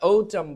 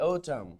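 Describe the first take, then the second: First: "autumn" said slowly and firmly, clearly stressed; slow model word. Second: "autumn" repeated quietly, falling; soft repeat. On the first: Teacher modelling the word for students, slow and firm. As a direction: spell out "autumn" slowly and loudly for the class. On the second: Teacher repeating the word to students, soft and falling. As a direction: echo "autumn" softly to let it sink in. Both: Shown as a demonstration. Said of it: "যেটাকে আমরা autumn বলি".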